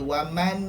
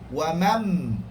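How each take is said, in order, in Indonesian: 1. Bunyi n diucapkan terpisah. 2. Bunyi n melebur sepenuhnya ke dalam m. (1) "dia tak ada waman, tak mau" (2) "Wamam masuk terus mim"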